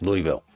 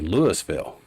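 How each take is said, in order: First: It is pronounced the common broadcast-media way. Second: It is pronounced the way outsiders say it. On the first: It is how media people say it. "the common enunciation for your media t- type of people" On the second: It is how people unfamiliar with the area say it. "people from way out from the area that don't know how to how to say Louisville"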